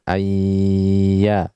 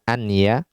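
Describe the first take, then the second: First: The n merges into the y with nasal sound. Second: The n is pronounced clearly before the y. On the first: "kita berikan gunnah yang uh, akmal" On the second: "tidak kita katakan anya dengan izhar"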